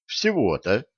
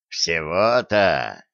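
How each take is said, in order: First: Said in the usual way. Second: Slow, low, drawn-out mockery; mock him, low and slow. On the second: A narrator's reading. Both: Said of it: "насмешливо спросил Дон".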